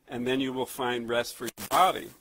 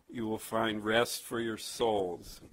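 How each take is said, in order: First: Hypothetical misquote, pitch jumping up on "body"; contrast on body. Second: Slow quote, settling firmly on "souls"; measured reading with a long, falling "souls"; stress on souls. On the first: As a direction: punch "body" with a rise to reject it. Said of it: "notice he doesn't say". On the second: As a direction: draw out "souls" as it falls at the end. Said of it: "emphasize that word, souls". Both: Shown as a demonstration.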